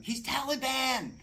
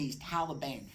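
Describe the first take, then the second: First: Much higher, louder and slow, in a panic; hammed-up frantic wife shouting Taliban; panicked scream. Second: Said in the usual way. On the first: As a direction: yell it in terror as the panicking wife. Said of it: "she starts screaming".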